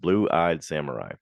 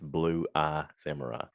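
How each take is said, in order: First: The second word ends with a d sound. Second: The second word ends without a d sound. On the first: The speaker calls it wrong. "I've been pronouncing it past tense with like blue eyed" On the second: The speaker calls it right. "It's Blue Eye Samurai"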